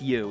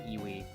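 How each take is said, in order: First: The word is pronounced like 'you'. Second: The word is pronounced like 'ee-wee'. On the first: The speaker calls it right. "Yeah, it's you" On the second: The speaker calls it wrong. "It's not fucking Iwi"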